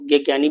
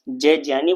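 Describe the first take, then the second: First: The letter begins with a g sound. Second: The letter begins with a j sound. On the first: This is the traditional everyday reading. "आप लोग उसको ज्ञ ज्ञानी भी पढ़ सकते हैं, कोई दिक्कत नहीं है" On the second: This is the pure Sanskrit reading. "शुद्ध रूप से अगर संस्कृत की बात करें तो उसको जय ज्ञानी बोला जाता है"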